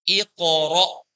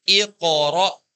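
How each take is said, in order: No difference in how they are said.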